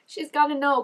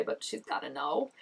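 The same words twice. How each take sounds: First: She's GOTTA know, gotta pushed higher and louder; insistent repeat. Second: Said in the usual way. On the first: Shown as a demonstration. Reacting to the show, insisting she must tell her, GOTTA stressed high and loud. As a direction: hammer GOTTA home the second time.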